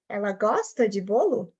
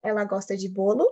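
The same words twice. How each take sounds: First: "Ela gosta de bolo?" said as a question, pitch moving on "gosta"; Portuguese question intonation; question tune. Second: "Ela gosta de bolo" said as a plain statement, falling at the end; Portuguese statement intonation; statement tune. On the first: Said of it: "the interrogative would be". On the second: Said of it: "the affirmative would be like". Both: Shown as a demonstration.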